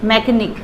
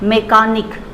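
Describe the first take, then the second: First: The second vowel is a short weak uh. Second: The second vowel is a full long ah. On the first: The speaker calls it right. "मैकेनिक not मैकानिक" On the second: The speaker calls it wrong. "It's wrong"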